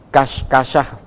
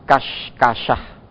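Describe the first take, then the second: Both takes have the same delivery.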